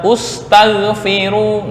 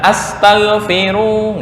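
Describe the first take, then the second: First: The word begins with a u vowel. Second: The word begins with an a vowel. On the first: "Nggak boleh dibaca ustaghfiru" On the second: "Bukan astaghfiru, nggak"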